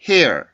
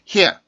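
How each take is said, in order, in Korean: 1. 마지막 R에는 울림이 있습니다. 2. 마지막 R에는 울림이 없습니다. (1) "조금 울림 소리를 가지고 있는데" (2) "그냥 hair 이런 소리가 아니고"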